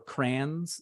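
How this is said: The word is said with one syllable.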